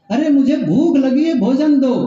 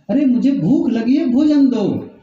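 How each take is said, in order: First: Raised, higher-pitched demand for food; louder retold call. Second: Said in the usual way. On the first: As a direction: call it out a bit more forcefully. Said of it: "थोड़ा loudly कहा". (थोड़ा ज़ोर से, ऊँचे सुर में) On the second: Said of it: "थोड़ा जोर से कहा".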